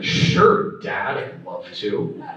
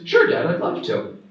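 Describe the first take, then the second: First: It sounds sarcastic and resentful. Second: It sounds sincere and willing. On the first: The son does not want to do it. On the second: The son is glad to do it.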